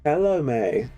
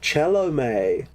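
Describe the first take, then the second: First: The name ends with an 'ay'-like vowel. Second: The name ends with an 'ay'-like vowel.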